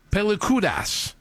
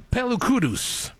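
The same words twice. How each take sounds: First: "Pelikudas" ending in a clear -das; alternative pronunciation. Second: "Pelukudus" ending in a short -us; first pronunciation variant. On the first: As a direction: slowly offer "Pelikudas" with a full final -as. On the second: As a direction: draw out "Pelukudus" with a weak last syllable. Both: Shown as a demonstration. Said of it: "Vous le prononcez comme vous le voulez".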